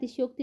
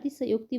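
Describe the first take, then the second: First: The 'sh' runs straight into 'y' without a vowel. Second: The 'sh' is followed by a full 'a' vowel. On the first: The speaker calls it wrong. "अतिशयोक्ति नहीं बोला जाता है" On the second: The speaker calls it right. "अतिशयोक्ति बोला जाता है"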